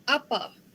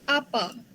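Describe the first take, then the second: No difference in how they are said.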